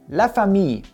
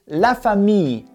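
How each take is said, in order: No difference in how they are said.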